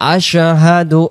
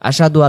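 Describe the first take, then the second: First: The h sound in the middle is clearly pronounced. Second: The h sound in the middle is dropped. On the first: The speaker calls it right. "এখানে স্পষ্ট করে আমরা বলবো" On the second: The speaker calls it wrong. "এই শব্দটা অনেকে আমরা বলে ফেলি আশাদু"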